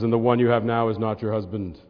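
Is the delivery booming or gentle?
booming. It is said in a big, booming voice. It sounds like a stern, grand pronouncement. The speaker calls it wrong. "if you get your big voice on"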